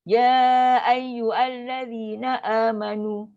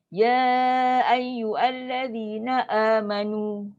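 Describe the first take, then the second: No difference in how they are said.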